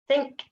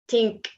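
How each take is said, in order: First: The word begins with a soft th sound. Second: The word begins with a hard t sound. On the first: The speaker calls it right. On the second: The speaker calls it wrong.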